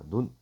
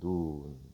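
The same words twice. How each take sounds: First: The vowel is said short. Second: The vowel is said long. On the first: It means the eye of a person. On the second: It means snow falling from the sky.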